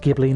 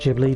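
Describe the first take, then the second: First: The word starts with a hard G sound. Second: The word starts with a J sound. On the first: The speaker calls it right. "It is Ghibli ... It's just a silent H" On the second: The speaker calls it wrong. "not Ghibli, despite the fact that most people pronounce it Ghibli"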